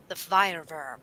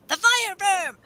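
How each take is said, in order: First: Said in the usual way. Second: Name the beast up high and dramatic; hammed-up spooky title voice; high dramatic monster name. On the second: Shown as a demonstration. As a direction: announce the fire verm like a movie trailer. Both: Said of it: "repeats in a voice".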